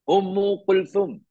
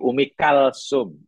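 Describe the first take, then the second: First: The name is said with a 'th' sound. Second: The name is said with an 's' sound. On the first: This is the original Arabic form of the name. "Putri Nabi lagi yang seorang namanya Ummu Kulthum" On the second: This is the local Malay form of the name. "jadi bahasa beliau jadi Umi Kalsum"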